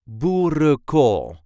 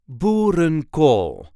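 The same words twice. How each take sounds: First: The n in the middle is left out. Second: The n in the middle is clearly pronounced. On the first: "Normally we would not pronounce that one, so it will sound more like boerenkool" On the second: "Now you hear me pronounce the N in the middle of boerenkool"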